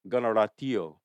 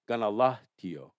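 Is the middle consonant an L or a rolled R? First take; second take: rolled R; L. First: The middle consonant is a rolled R. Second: The middle consonant is an L. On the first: This is the Mohawk way of saying it. "My son's name is" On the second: This is the Oneida way of saying it. "the Oneidas would say"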